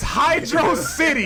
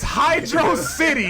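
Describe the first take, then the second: First: It is said as two separate words. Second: The same.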